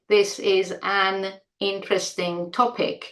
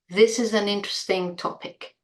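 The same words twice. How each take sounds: First: Each word is said separately. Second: The words run together with links. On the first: The speaker calls it wrong. "we don't say" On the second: The speaker calls it right. "It all runs"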